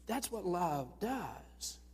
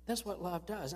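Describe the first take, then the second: First: Drawn out slowly, each word weighed; slow right down to land it; that's what love does, said very slowly; slow emphasis. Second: Said in the usual way. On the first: Shown as a demonstration.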